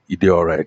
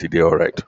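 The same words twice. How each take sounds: First: It sounds flat and lukewarm. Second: It sounds warm and approving. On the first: The service was only mediocre. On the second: The service was genuinely good.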